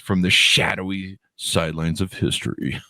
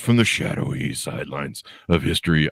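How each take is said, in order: First: It is read in a plain, normal speaking voice. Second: It is said in a dramatic movie-trailer voice. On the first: "I should put that in the in the movie voice" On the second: "it was like the uh, the whole in a world gone mad"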